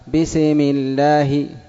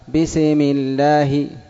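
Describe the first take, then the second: First: The s is released with a small bounce. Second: The s is released with a small bounce.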